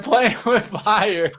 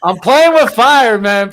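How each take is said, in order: First: Laughing. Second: Loud, high hype bro boast; crypto bro. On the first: Repeats his boast, laughing. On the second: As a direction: shout it like a proud gambler. Bragging about a risky stock. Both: Acted.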